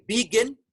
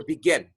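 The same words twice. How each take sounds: First: "begin" with BE punched high; stress on first syllable. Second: "begin" with GIN stressed; stress on final syllable. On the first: Teacher offers class the wrong choice, "begin" stressed on BE. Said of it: "Which syllable is higher". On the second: Teacher offers class the right choice, "begin" stressed on GIN. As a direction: say "begin" as be-GIN, weight on the ending. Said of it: "The final syllable". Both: Shown as a demonstration.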